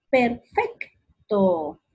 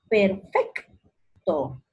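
First: "Perfecto" slow, FEC punched, TO drawn out; stress on FEC. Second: "perfecto" as perFEC, long pause, to; stress on FEC. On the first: Teacher sounding out "Perfecto", slow stress on FEC. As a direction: split "Perfecto" around a strong middle syllable. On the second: Teacher showing the strongest syllable, split "perfecto" after FEC. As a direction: lift FEC in "perfecto" and halt before to. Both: Shown as a demonstration. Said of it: "fec va a ser la sílaba tónica".

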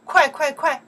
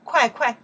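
First: 快 快 快 fired off high and loud; urgent repeat. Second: 快 快 snapped out high and loud, urgent; urgent repeat. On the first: Urging someone to hurry, high urgent calls. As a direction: push someone to move fast with 快 快 快. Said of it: "Or you can say". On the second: Urging a student to hurry, high and loud. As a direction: hurry someone along with 快 快. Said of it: "We can say 快". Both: Shown as a demonstration.

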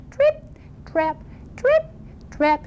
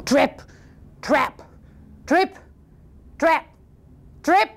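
First: High little hoofsteps with gaps; dainty, high-pitched trip-trap; teeny tiny noise. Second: Heavy, widely spaced steps, lightly suggested; thunderous hoofsteps. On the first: Tiniest goat crossing the bridge, tiny high steps. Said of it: "teeny tiny bridge, little noise like this". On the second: Biggest goat crossing the bridge, deliberate heavy steps. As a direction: land each word separately as a weighty step. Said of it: "it sounded like thunder". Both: Acted.

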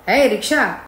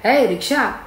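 First: Mildly raised, higher-pitched hail; loud call. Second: Higher-pitched hail to a rickshaw; calling out. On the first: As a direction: call out firmly to get the driver's attention. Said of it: "మళ్ళీ పిలిచాడు పెద్దగా". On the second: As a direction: call for a ride, without real shouting. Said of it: "పిలిచాడు". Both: Acted.

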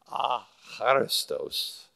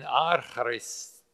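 First: "acharistos" slowly, stress on "cha"; corrected syllable stress. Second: "archaris-" with the stress late, on "ris", broken off; misplaced stress. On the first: Teacher corrects his Greek, slow "acharistos" stressed on "cha". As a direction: sound out "acharistos" carefully, leaning on "cha". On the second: Teacher fumbles a Greek word, "archaris-" stressed late and cut short. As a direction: stumble on "archaris-", leaning on the last syllable. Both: Shown as a demonstration. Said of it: "get the emphasis on the right syllable".

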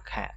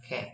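First: "cat" with a flat e vowel, close to keh; American cat. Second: "cat" with an open a like in father; British cat. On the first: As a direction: say "cat" leaning toward e. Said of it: "Thiên về e nó sẽ là". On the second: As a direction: say "cat" leaning toward a. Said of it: "Nếu đọc thiên về a nó sẽ là a". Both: Shown as a demonstration.

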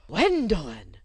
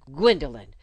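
First: Shocked gasp of the name, louder; breathed in shock. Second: Sharp, much louder call of the name; annoyed exclamation. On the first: Governess shocked by the outburst, breathed name. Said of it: "breathed Miss Royle". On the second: Governess catching her pupil crying, annoyed exclamation. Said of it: "she exclaimed, annoyed". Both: Acted.

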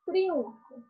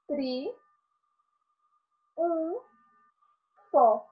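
First: Said in the usual way. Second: "Tri, um, fó" with long gaps between syllables. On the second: Shown as a demonstration. Teacher showing how the vowels separate, syllable by syllable. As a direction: sound out "Tri", "um", "fó" one at a time. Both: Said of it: "Elas se separam".

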